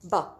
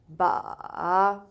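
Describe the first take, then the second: First: It is said with the fourth tone. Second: It is said with the third tone. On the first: "And the fourth one" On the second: "Third one"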